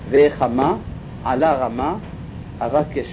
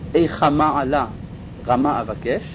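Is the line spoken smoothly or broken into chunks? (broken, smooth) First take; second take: broken; smooth. First: The line breaks into chunks, even mid-word. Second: The line flows smoothly without breaks inside words. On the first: The speaker calls it right. "כי לפי הציור הזה" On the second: The speaker calls it wrong. "האמת היא זה לא ככה אומרים את זה"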